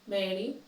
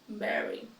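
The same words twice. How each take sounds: No difference in how they are said.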